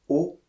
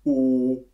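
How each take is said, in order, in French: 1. La voyelle « O » a un timbre neutre et simple. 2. La voyelle « O » résonne bas et arrondi dans la gorge. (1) "ma voix a gardé le même timbre" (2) "il descend dans la gorge"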